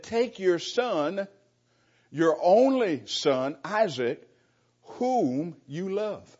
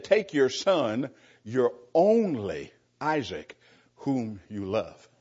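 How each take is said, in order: First: Each phrase slow and weighted, "only" and "whom" leaned on; slow, emphatic reading. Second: Slow read with "only" drawn out and weighted before "Isaac"; stress on only. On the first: Preacher reading God's command to Abraham, slow and emphatic. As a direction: read God's words slowly, piling up each phrase. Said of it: "God's really emphasizing all of that". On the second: Preacher reading the original wording to the congregation, stressing only. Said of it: "it really emphasizes the word only". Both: Shown as a demonstration.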